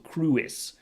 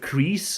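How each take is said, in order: First: The vowel starts with a 'u' sound. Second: The vowel is a plain 'ee' sound. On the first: The speaker calls it right. "the W is a bit of a U actually, so Cruis" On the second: The speaker calls it wrong. "I was going with crease"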